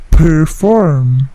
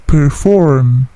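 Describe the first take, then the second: First: "perform" with a big P burst, said slowly; heavy P. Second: "perform" with only a small puff on the P; just a small puff on the P of "perform"; light P. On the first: Teacher showing the wrong, heavily puffed P in "perform". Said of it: "tetapi tidak terlalu besar plosifnya. Bukan perform". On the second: Teacher showing the right, lightly puffed P in "perform". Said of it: "tetapi tidak terlalu besar plosifnya". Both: Shown as a demonstration.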